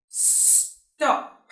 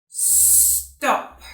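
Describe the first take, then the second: No difference in how they are said.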